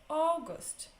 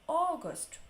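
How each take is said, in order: The two takes are said the same way.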